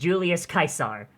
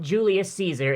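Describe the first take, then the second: First: Caesar begins with a hard K sound. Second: Caesar begins with a soft S sound. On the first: The speaker calls it right. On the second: The speaker calls it wrong. "It's not"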